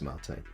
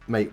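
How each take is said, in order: First: It is said like the South American drink. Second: It is said like the greeting 'hey mate'. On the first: This is the technically correct name. "So technically it's mate" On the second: This is an acceptable everyday reading. "but um, mate works"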